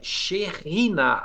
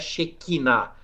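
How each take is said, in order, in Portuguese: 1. A consoante do meio é um kh gutural. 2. A consoante do meio é um k forte. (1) "é Shekhinah a pronúncia correta" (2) "Todo mundo fala errado"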